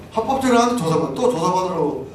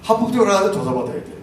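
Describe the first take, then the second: First: Indignant repeat. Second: Said in the usual way. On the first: Real, not acted. Repeats louder, higher.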